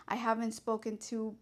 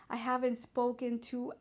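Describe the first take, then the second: No difference in how they are said.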